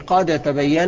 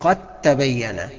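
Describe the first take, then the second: First: The d is pronounced separately before the t. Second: The d merges fully into the following t. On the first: The speaker calls it wrong. "ما تقولش قد تبين" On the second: The speaker calls it right. "انما النطق الصحيح قد تبين"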